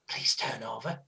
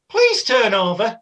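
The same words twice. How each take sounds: First: It is said in a whisper. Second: It is said in a loud voice. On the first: The speaker calls it right. "I'd whisper it normally and go" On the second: The speaker calls it wrong. "not that loud because then other people would hear"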